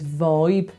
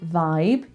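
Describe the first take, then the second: First: It is said in a Black Country accent. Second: It is said in a standard accent. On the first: "he says vibe. So that goes more forward" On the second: "So instead of saying vibe"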